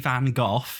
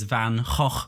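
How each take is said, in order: First: The name is said the British way. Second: The name is said the Dutch way. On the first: "British people say Van Gogh" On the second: "Dutch people pronounce it as Van Gogh"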